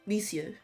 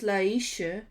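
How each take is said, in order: First: The name sounds like 'Lees-yuh', with s then y. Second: The name sounds like 'Laisha', with an sh sound. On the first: The speaker calls it right. "it's pronounced Liesje. Like Lies, but with a y" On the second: The speaker calls it wrong. "he's pronouncing it as Laisha"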